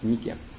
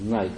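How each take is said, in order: First: It is two syllables, 'Nee-keh'. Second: It is one syllable, 'Nayk'. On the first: This is the original reading of the name. The speaker calls it right. "это не что иное, как Нике" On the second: This is the English reading of the name. The speaker calls it wrong. "на грубом английском языке это дурацкий Найк"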